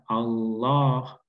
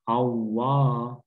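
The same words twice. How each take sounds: First: The middle consonant is a clear l. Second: The middle consonant sounds like a w. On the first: The speaker calls it right. "Yang benar" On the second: The speaker calls it wrong. "Jangan sampai kita menjadikan huruf lam ini menjadi waw"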